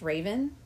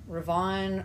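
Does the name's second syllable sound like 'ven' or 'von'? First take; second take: ven; von. First: The second syllable sounds like 'ven'. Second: The second syllable sounds like 'von'. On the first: "is not pronounced Raven" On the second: "all the nerds, correct me, always say Ravon"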